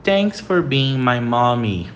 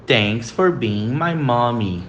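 First: Thanks for being my mommy said slowly, thanks stressed; slow model sentence. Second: Thanks for being my mommy repeated slowly, for stressed; slow model sentence again. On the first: (frase modelo lenta) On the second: (frase modelo repetida devagar) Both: Shown as a demonstration. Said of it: "Próxima frase".

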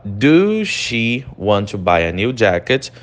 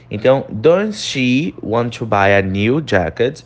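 First: Slow "Do she" as the wrong version; teacher showing the wrong form. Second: Slow, clear "does she"; teacher showing the correct form. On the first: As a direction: model the mistake "Do she" slowly. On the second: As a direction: model the right "does" slowly. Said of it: "She tá na terceira pessoa". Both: Shown as a demonstration.

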